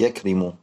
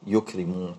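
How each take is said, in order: First: The first syllable has the vowel a. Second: The first syllable has the vowel u. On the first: The speaker calls it wrong. "لا تقول" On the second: The speaker calls it right. "وإنما"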